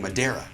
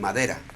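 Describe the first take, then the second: First: The word has English-accented pronunciation. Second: The word has native Spanish pronunciation. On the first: The speaker calls it wrong. "he was saying Madeira ... as a gringo will do" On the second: The speaker calls it right. "he had to say uh, Madera"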